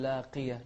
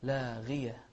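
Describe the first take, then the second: First: لاقية with a hard q sound instead of gh; mispronounced on purpose; wrong qaf. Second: لاغية with a lightly heavy gh on kasra; light ghayn. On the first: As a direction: say لاقية with a q, as the mistake. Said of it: "ولا تقول لاقية". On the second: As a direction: correct model. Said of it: "غين مفخمة لكنها مكسورة". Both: Shown as a demonstration.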